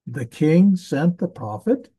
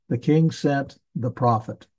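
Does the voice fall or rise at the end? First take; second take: rises; falls. First: The voice rises at the end. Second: The voice falls at the end. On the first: It asks a question. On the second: It states a fact.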